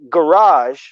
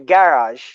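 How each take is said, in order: First: It is said in an American accent. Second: It is said in a British accent. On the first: "if you say garage" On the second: "they say garage"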